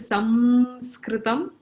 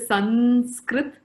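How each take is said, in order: First: An m-like nasal before s, ending in -am. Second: An n-like nasal, with no -am ending. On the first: This is how it is said in the south. "in the south, they will say" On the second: This is how it is said in the north. "In the north, they will say"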